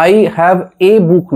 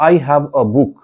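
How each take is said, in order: First: "a" said as the letter name, ay; article as "ay". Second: "a" said as a short, unstressed "uh"; article as schwa. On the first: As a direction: say "a" like "ay" in I have a book. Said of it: "অ উচ্চারণটা করার". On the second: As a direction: say "a" like "uh" in I have a book. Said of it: "চেষ্টা করো অ উচ্চারণটা করার". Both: Shown as a demonstration.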